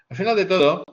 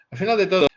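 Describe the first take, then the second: No difference in how they are said.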